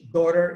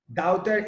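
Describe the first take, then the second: First: It is said in an American accent. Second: It is said in a British accent.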